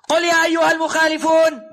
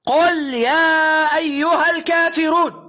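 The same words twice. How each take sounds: First: Said in the usual way. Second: Slow emphatic call. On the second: Shown as a demonstration. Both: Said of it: "لم يقل لك".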